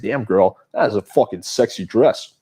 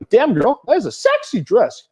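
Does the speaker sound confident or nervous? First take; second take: confident; nervous. First: It is said in a confident, smirking way. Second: It is said in a nervous, unsure way.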